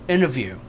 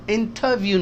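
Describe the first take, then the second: First: The t after n is dropped into the n. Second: The t after n is clearly pronounced. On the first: The speaker calls it right. "यानी ये टी भी एन हो गया इस एन की वजह से" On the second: The speaker calls it wrong. "इंटरव्यू नहीं है"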